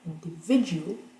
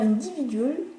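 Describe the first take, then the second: First: The stress is on the third syllable. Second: The stress is not on the third syllable. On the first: The speaker calls it right. "L'accent est juste avant" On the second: The speaker calls it wrong. "Les francophones ont envie de faire individual et malheureusement, c'est pas ça"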